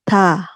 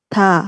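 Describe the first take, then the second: Both takes have the same delivery.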